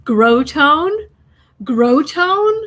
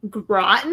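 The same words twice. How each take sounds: First: "Grow tone" said as two words, GROW and TONE both full, rising like a question; clerk's wrong pronunciation. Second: "Groton" said quickly as GRAH-tn, the second syllable swallowed; local pronunciation. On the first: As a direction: mimic the clerk asking "Grow tone?" with a long O in each part. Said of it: "he was like". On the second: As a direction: say "Groton" the local way, short and clipped. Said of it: "Do you mean". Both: Retold or imitated.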